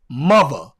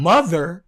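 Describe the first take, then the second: First: The middle th sound is replaced by another sound. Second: The middle th sound is pronounced fully. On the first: "it's mother" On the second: "instead of it being mother"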